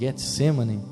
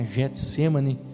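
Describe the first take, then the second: First: It begins with a hard G sound. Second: It begins with a soft J sound. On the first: This is how it is said in Hebrew. "No hebraico eles dizem Getsemane" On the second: This is how people usually say it. "a gente já costuma falar Getsemane, mas então seria com J"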